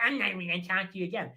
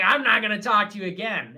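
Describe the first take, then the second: First: Rushed, garbled mocking imitation; mock her in a fast, put-on voice; bitch voice. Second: Loud, bratty mock bitch voice. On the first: Mockingly repeating her threat, rapid bitch voice. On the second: Imitating a woman cutting him off, loud bitch voice. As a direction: imitate her, loud and snotty. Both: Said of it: "in a bitch voice".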